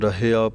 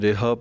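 First: It starts with a plain ra and ends in ia. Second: It starts with re and ends in a. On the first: The speaker calls it right. "ਇਸ ਕਰਕੇ ਰਹਿਆ ਪਾਠ ਹੈ" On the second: The speaker calls it wrong. "ਕਈ ਰੇਹਾ ਪੜ ਜਾਂਦੇ ਹਨ"

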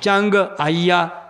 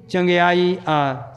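First: The word is split into two separate parts. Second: The word is said joined as one unit. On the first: The speaker calls it wrong. "ਕਈ ਐਂ ਵੀ ਪੜ੍ਹਦੇ ਨੇ ... ਉਹ ਦੋ ਪਾਠ ਬਣਾਤੇ" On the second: The speaker calls it right. "ਇਕੱਠਾ ਪੜ੍ਹਨਾ"

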